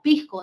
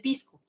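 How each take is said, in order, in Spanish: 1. La s antes de la c se suaviza, casi aspirada. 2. La s antes de la c es un silbido completo. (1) "a veces tendemos a suavizar la S" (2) "en vez de pisco"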